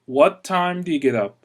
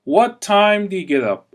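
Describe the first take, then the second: Both takes have the same delivery.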